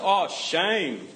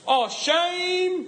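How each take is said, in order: First: It is said in the speaker's natural accent. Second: It is said in an exaggerated put-on accent. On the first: It is an ordinary local reaction to something stupid. The speaker calls it right. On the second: It mocks someone else's way of speaking. The speaker calls it wrong.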